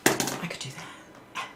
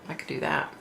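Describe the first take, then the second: First: Slow, breathy whisper of the same words; hushed, slow aside; whisper to herself. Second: Said in the usual way. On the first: Real, not acted. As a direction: murmur it as a private thought.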